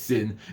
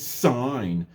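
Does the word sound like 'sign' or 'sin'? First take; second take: sin; sign. First: It is said with a short vowel, like 'sin'. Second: It is said with a long vowel, like 'sign'. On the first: "we don't see that as sin" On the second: "It's sine"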